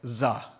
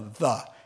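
First: The word begins with a buzzing z sound. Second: The word begins with a soft th sound. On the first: The speaker calls it wrong. "They would say za" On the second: The speaker calls it right. "Japanese have a terrible time with TH"

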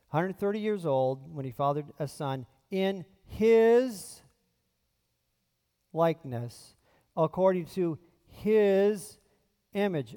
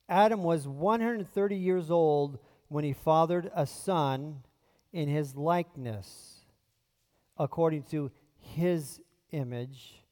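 First: It is read with strong added emphasis. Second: It is read plainly, without added emphasis.

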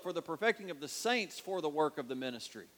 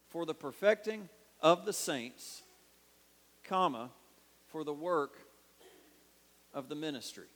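First: There is no pause after 'saints'. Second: There is a pause after 'saints'.

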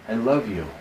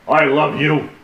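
First: The words are said in a warm, tender tone. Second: The words are said flatly, without any warmth. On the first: The speaker calls it right. "tone of voice that is endearing" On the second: The speaker calls it wrong. "It's not smart"

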